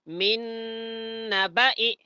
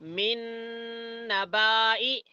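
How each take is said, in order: First: The vowel after the b is kept short. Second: The vowel after the b is drawn out long. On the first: The speaker calls it right. "ऐसा पढ़ना सही है" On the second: The speaker calls it wrong. "ऐसा पढ़ना गलत है"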